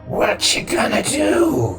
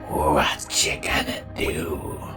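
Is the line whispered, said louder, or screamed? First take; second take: louder; whispered. First: It is said a little louder. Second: It is whispered very quietly.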